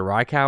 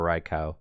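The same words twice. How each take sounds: First: Raikou said as RYE-kow; first option. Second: Raikou said as RYE-koh; second option. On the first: Host offering one of two options, Raikou as RYE-kow. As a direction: end Raikou on "kow", like cow. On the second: Host offering the other option, Raikou as RYE-koh. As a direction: end Raikou on "koh", long o. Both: Shown as a demonstration. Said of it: "it's either Raikou or Raikou".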